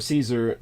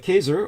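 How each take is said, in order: First: The name begins with a soft S sound. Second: The name begins with a hard K sound.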